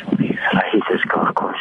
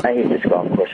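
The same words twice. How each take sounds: First: Hushed whisper into the phone. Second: Said in the usual way. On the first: Real, not acted. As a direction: whisper so no one nearby hears. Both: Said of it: "Why are you whispering?".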